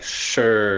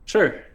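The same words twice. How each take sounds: First: It is said in a negative tone. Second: It is said in a neutral tone.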